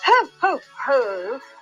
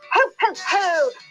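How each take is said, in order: First: It is said in a plainer, less lively way. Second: It is said in a jolly, energetic way.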